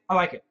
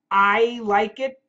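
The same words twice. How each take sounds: First: The words are linked with a shortened 'I'. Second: Each word is said fully and clearly. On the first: The speaker calls it right. "We say" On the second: The speaker calls it wrong. "But we don't say that"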